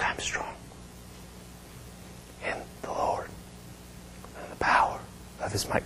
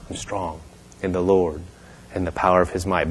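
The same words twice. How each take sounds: First: Halting whisper with long gaps; barely whispered. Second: Soft, low, feeble murmur; barely getting words out. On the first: Wasting-away woman repeating her confession, halting voiceless whisper. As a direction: force each phrase out on faint breath. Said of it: "but it's more like". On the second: Sick woman repeating the minister's words, weak and hushed. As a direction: imitate struggling to push words out. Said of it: "Just barely trying to get the words out". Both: Retold or imitated.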